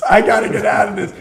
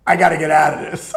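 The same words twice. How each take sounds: First: Fast, louder and higher panic; rising desperation, pushed harder; more panicked. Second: Fast, louder panicked cry; urgent need to escape. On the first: Panicking again over streaking, louder and higher. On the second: Panicking over having to streak, fast and loud. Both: Retold or imitated. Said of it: "I'm like".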